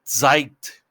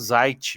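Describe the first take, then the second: First: The word begins with a ts sound. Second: The word begins with a plain z sound. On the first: This is the original German pronunciation. "em alemão, ele tem um, parece que tem um Tzinho assim antes do, do Z" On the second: This is how people in Brazil say it. "aqui no Brasil a gente fala Zeit mesmo"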